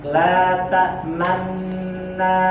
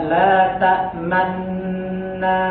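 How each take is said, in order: No difference in how they are said.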